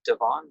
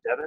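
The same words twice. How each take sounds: First: "Devon" said duh-VON; "Devon" as duh-VON, checking the name; stress on second syllable. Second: "Devon" said DEV-un; "Devon" as DEV-un, offered as the alternative; stress on first syllable. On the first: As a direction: stress the end of "Devon", with an open "ah". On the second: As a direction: stress the start of "Devon", weak last vowel. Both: Shown as a demonstration. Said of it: "or how do I pronounce it".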